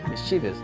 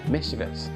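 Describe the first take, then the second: First: The stress is on the second syllable. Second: The stress is on the first syllable. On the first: The speaker calls it wrong. "your primary stress is on the second syllable, which is completely wrong" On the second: The speaker calls it right. "that word has the primary stress on miss"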